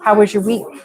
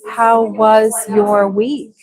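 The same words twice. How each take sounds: First: The phrase is said quickly with the words squished. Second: The phrase is said slowly with each word clear. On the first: The speaker calls it right. "It's squished down and faster" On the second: The speaker calls it wrong. "we don't really say"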